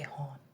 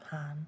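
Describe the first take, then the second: First: The vowel sounds like the 'o' in 'hot'. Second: The vowel sounds like the 'a' in 'cat'. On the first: "you say hon" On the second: "instead of han"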